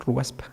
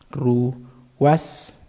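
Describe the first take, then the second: First: Said in the usual way. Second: "Ruaspa" broken into separate syllables; por sílabas. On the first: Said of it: "Así". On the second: Shown as a demonstration. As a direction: spell it out by sound, pausing between "ru" and "was". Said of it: "así sería, mira". ("Ruaspa" separado en sílabas, con pausas)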